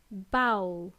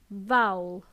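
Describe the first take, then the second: First: Bowl as "bowel", low and falling; Bowl, firm b, rhyming with owl; initial b. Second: Vowel as "vowl", low and falling; vowel, buzzed v at the start; initial v. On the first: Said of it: "Bowl with a B". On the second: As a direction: say "vowel" with a clear V. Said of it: "Vowel with a V". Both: Shown as a demonstration.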